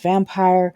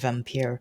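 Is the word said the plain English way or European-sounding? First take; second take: English; European. First: The word is said like the plain English word. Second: The word is said with a European-sounding pronunciation. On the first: "It's probably pronounced vampire" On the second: "the European-y sounding vampire"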